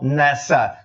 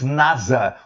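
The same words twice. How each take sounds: First: The middle consonant sounds like an S. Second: The middle consonant sounds like a Z. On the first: This is how it is said in the United States. "som de S" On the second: This is how it is said in Brazil. "com o S som de Z"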